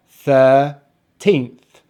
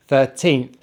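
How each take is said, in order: First: Put-on "thirteenth" slowly as thir, then teenth; syllable by syllable. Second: Said in the usual way. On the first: Shown as a demonstration. Teacher putting the parts together for learners, "thirteenth" syllable by syllable. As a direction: split "thirteenth" into two drawn-out syllables. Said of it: "So put them together". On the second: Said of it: "make sure you stress on the teenth".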